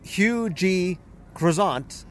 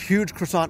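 First: The name is said slowly, with parts kept apart. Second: The name is said quickly, with parts run together. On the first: It sounds like an ordinary personal name. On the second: It sounds like a description of a big pastry.

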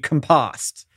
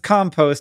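First: The stress is on the second syllable. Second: The stress is on the first syllable. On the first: It names an action. "then the verb would be compost" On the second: It names a thing. "the noun is compost"

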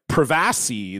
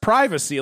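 First: The word is pronounced in an odd, affected way. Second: The word is pronounced in the ordinary modern way. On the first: The speaker calls it wrong. "they say them so wrong" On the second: The speaker calls it right. "that's just privacy"

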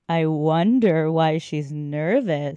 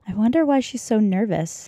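First: It is said with heavy suggestive innuendo. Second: It is said plainly, without innuendo.

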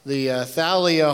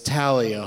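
First: The name begins with a th sound. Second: The name begins with a plain t sound. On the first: The speaker calls it wrong. "I've been calling this the Thalia Hall" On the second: The speaker calls it right. "you don't pronounce the H"

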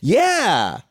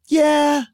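First: It is said at a lower, normal pitch. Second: It is said at a high, up pitch.

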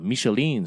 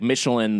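First: Michelin is said with a French-style pronunciation. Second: Michelin is said with a plain English pronunciation. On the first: It sounds more esteemed, as for the restaurant star. "they'll French it up a little bit to make it sound more esteemed" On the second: It refers to the tire company. "they say it that way"

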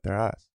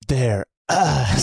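First: The line is delivered casually, thrown away. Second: The line is delivered dramatically, with big emphasis.

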